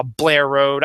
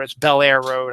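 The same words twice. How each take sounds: First: "Blair Road" run together as one word, Baltimore style; Baltimore pronunciation. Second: Said in the usual way. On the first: Shown as a demonstration. Showing how locals say Bel Air Road, "Blair Road" in Baltimore accent. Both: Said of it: "I don't really call it Blair Road".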